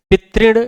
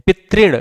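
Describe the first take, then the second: No difference in how they are said.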